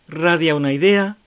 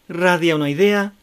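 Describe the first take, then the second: The two takes are said the same way.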